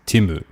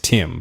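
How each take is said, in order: First: The name ends with an added vowel after m. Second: The name ends on the m sound. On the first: "but it's Timu in Japanese" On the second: "my name's Tim"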